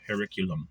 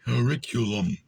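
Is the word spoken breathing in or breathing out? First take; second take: breathing out; breathing in. First: It is spoken on a normal outgoing breath. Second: It is spoken while breathing air inward. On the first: "I'll say it forward" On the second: "suck it in like a vacuum"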